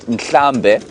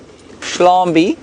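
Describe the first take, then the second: First: The word begins with an nkl sound. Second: The word begins with a shl sound. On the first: It is the original form of the word. "which means herd" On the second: It is a corrupted slang form of the word. "a very bad, um, very bad sort of uh, uh, pronunciation"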